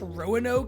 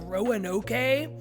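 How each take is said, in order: First: The final E is silent. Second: The final E is pronounced aloud. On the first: The speaker calls it right. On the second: The speaker calls it wrong.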